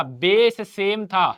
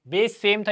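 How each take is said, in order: First: "base same था" drawn out slowly, every word weighted; slow stressed repeat. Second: Said in the usual way. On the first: Shown as a demonstration. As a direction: lean slowly on "base same था" to drive the rule home. (धीरे-धीरे ज़ोर देकर "base same था") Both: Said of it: "power add कर दिया भैया और कुछ नहीं किया".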